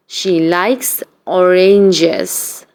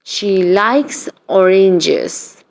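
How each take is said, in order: Both takes have the same delivery.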